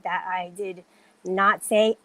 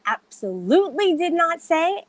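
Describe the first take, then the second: First: Said in the usual way. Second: Insistent, raised pitch from "absolutely" on; emphatic denial. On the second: Real, not acted. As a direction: deny it higher, leaning on "absolutely". Repeats denial with added emphasis.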